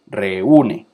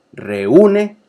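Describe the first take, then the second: First: Said in the usual way. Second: Reúne with the ú punched higher and louder; stressed ú demo. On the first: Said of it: "Maíz". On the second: Shown as a demonstration. Teacher showing students the stressed vowel in reúne, higher and louder. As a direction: hit the ú in reúne hard. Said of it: "Fíjense cómo la vocal cerrada".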